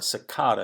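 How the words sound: It is said with a British pronunciation.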